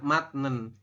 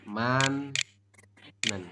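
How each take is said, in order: First: The first syllable ends with a t sound. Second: The first syllable ends with an n sound. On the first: "tulisannya benar, matnen" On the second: "Anda membacanya adalah manen. Kayak gini"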